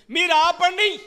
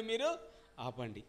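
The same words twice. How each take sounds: First: Much higher, louder barked "ఆపండి"; shouted command. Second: "మీరు" lifted, then "ఆపండి" dropped much softer and lower; quieter repeat. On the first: Pharisees order the disciples to stop, a loud command. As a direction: shout them down. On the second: Pastor repeats the Pharisees' order softly for the congregation. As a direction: let the order fall away. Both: Retold or imitated. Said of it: "ఏమన్నారండి?".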